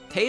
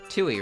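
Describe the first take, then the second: First: The name is said without a W sound. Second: The name is said with a W sound. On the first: The speaker calls it right. "T E I and the W is like silent" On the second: The speaker calls it wrong. "I used to call her uh, Tui"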